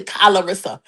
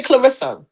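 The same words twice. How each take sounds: First: "Calarissa" starting with a separate 'kah'; extra-syllable pronunciation. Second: Said in the usual way. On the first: Shown as a demonstration. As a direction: open up the first syllable of "Calarissa" as kah-la. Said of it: "They say Calarissa". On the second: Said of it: "They don't know how to say Clarissa".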